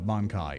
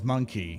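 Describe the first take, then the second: First: The second syllable sounds like 'kai'. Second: The second syllable sounds like 'key'. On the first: The speaker calls it right. "It's Monkai. ... a Mon and then a Kai" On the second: The speaker calls it wrong. "Rogue Trader says monkey"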